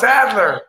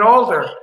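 First: The D sound comes before the L. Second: The L sound comes before the D. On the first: The speaker calls it right. "no, it's Adler" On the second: The speaker calls it wrong. "I called him Stephen Alder"

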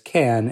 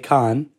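First: The name sounds like the English word can. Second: The name is said with a French pronunciation. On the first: This is how the industry outside France says it. "the rest of the industry outside of France says can, as in a can of tomato soup" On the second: This is how French speakers say it. "if you're French, you would say Cannes"

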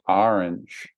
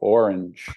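First: The word begins with an 'ah' vowel. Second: The word begins with an 'oh' vowel. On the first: "Yours starts with A" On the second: "Mine starts with O"

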